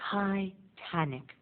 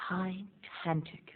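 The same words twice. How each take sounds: First: "Titanic" slow and soft, ending in a light T; soft final T. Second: "Titanic" whispered, final T dropped. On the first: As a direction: say "Titanic" gently with a faint T. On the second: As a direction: breathe "Titanic" without the last T. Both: Shown as a demonstration. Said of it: "There's no last T".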